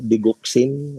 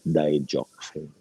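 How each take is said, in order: First: It is said with a Philippine pronunciation. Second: It is said with an American pronunciation. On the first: "in the Philippines, we pronounce it as digoxin" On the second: "sa U S, they pronounce it as digoxin"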